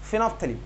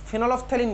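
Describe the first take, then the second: First: The middle 'ol' syllable is left out. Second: The middle 'ol' syllable is fully pronounced. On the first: The speaker calls it right. "ফেনফথ্যালিন হচ্ছে প্রোনাউন্সিয়েশনটা" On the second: The speaker calls it wrong. "ফেনলফথ্যালিন বলে না"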